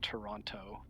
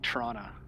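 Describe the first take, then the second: First: The name is said fully, with every sound. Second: The name is said in a clipped local way. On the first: This is not how locals say it. "not Toronto" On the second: This is how locals say it. "they say it like Toronto"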